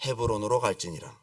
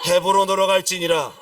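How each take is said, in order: First: Low, subdued scripture answer; calm divine answer. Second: Loud, firm decree; emphatic divine command. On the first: Preacher reading God's answer to David, low and calm. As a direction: read the command low and settled. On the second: God answering a hesitant David, emphatic command. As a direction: pronounce the command forcefully. God's command cuts off the pleading. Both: Acted.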